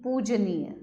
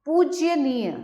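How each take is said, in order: First: Said in the usual way. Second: पूज्यनीय with y after j; पूज्यनीय as poojya-neey; extra य. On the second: Shown as a demonstration. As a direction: slip a y into पूज्यनीय. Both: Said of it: "नहीं, पूजनीय".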